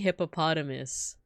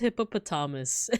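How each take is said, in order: First: It is said with an American pronunciation. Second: It is said with a non-American pronunciation. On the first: This is how the speaker grew up saying it. "I am Bear American. I grew up saying hippopotamus" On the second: This is how the speaker's mother says it. "She says hippopotamus"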